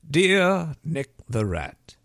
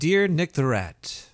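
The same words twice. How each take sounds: First: It is said in a put-on reading voice. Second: It is said in an ordinary speaking voice.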